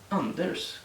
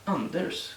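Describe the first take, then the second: First: The r and s are pronounced as separate sounds. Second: The r and s are pronounced as separate sounds.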